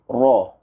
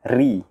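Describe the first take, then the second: First: The r sounds heavy, with the tongue raised. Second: The r sounds light, with the tongue lowered. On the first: "huruf ra yang tebal kita akan mengangkat lidah kita sedikit" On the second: "kita tidak mengangkat lidah kita"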